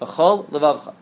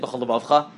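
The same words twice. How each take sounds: First: A small break separates the two L sounds. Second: The two L sounds run together as one. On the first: The speaker calls it right. "Separate between the two lamets" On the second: The speaker calls it wrong. "don't say"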